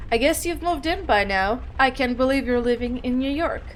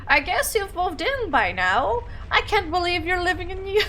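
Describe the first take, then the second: First: Put-on toned-down older mom voice, near usual pitch; gently voiced mom; old-sounding mother. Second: High, lilting put-on mom voice; swoopy mock old mother; weird old-mother voice. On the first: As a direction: read it as a mother, only lightly aged. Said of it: "old sounding". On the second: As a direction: try an odd, higher voice for an elderly mother. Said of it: "that's a weird voice".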